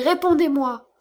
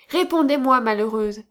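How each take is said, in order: First: Loud, higher, pressing the demand; repeated terrified cry. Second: Terrified cry. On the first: Count repeats his demand to the madwoman, louder and higher. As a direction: cry it out again, shaking her. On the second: Count in terror cries at the madwoman, loud and desperate. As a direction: shake the answer out of her in terror. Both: A narrator's reading. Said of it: "s'écria-t-il".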